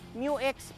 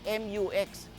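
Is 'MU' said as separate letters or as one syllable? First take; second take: one syllable; separate letters. First: The first part is said as one syllable, 'mew'. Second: The first part is spelled out letter by letter. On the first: The speaker calls it right. "parang yung paborito nating Pokemon, si Mewtwo" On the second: The speaker calls it wrong. "hindi M U X"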